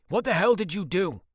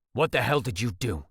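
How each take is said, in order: First: Higher and louder, hitting hell; angry demand. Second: Said in the usual way. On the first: Acted. Ford demands of Bentley what hell he did, angrily. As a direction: throw it at him, hitting hell. Confronting his brother again.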